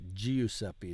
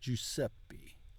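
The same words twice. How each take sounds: First: The i after the G is sounded separately. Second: The i after the G is silent. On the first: The speaker calls it wrong. "It's not" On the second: The speaker calls it right.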